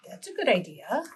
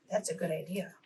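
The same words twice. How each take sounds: First: Said in the usual way. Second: Much softer, almost to herself; soft praise. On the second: Shown as a demonstration. Teacher praising a child's answer, very soft. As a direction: drop the voice right down. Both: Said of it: "praising the listener's answer".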